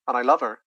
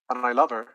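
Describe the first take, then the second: First: The words run together with sounds lost. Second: The same.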